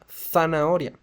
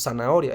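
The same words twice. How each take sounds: First: The first sound is a th sound. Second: The first sound is an s sound. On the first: This is how people from Spain say it. "ellos dicen zanahoria" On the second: This is how Latin Americans say it. "no como nosotros que decimos zanahoria"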